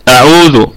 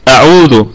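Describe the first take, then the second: No difference in how they are said.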